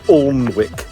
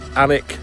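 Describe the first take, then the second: First: It is said the way outsiders say it. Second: It is said the way locals say it. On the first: The speaker calls it wrong. "you hear them pronouncing it as Alnwick" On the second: The speaker calls it right. "that's how you pronounce it"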